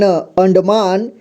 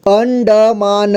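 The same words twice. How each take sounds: First: Said in the usual way. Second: अंडमान drawn out slowly as an-da-maa-na; syllable-by-syllable reading. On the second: Shown as a demonstration. Teacher showing learners long words, अंडमान slowly in syllables. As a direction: sound out अंडमान slowly, every vowel voiced. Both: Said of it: "देखिए कैसे पढ़ेंगे".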